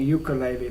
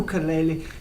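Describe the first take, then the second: First: The word is said the British way. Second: The word is said in a non-British way. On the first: It sounds plain and unpretentious. The speaker calls it right. "the British way of just saying ukulele" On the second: It sounds a little pretentious. The speaker calls it wrong. "I don't say ukulele because it sounds a little bit pre- pretentious"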